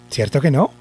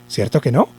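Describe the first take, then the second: The two takes are said the same way.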